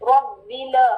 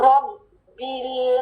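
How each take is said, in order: First: The L sound is cut off with a jerk. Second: The L sound is held briefly and smoothly. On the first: The speaker calls it wrong. "ऐसे नहीं पढ़ना" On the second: The speaker calls it right. "थोड़ी सी आवाज चलानी है"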